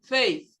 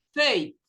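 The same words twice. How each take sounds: First: Faith with the tongue on the teeth, th sound; correct faith. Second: Faith with a plain s or t at the end; wrong faith. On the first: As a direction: end Faith with a clear th. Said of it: "Língua no dente". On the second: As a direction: say Faith ending in a hissed s. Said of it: "Você solta um S depois do faith". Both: Shown as a demonstration.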